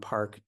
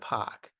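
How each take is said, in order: First: The R is pronounced after the vowel. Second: The R is dropped with a back vowel. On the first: "if I just drop my R" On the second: "That's that's like a classic New York dialect"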